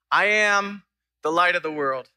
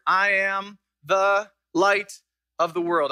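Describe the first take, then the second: First: Said in the usual way. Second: Slow, every word weighed, "light" carried longest; slow the verse down for the congregation; slow, deliberate reading. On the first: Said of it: "slow down and just look at seven words". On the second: Shown as a demonstration. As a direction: lay out each of the seven words slowly. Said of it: "I want to slow down".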